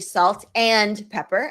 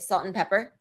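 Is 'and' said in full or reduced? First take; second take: full; reduced. First: The middle word is said fully and clearly. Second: The middle word is reduced to a weak sound. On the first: The speaker calls it wrong. "I don't say" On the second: The speaker calls it right. "I say"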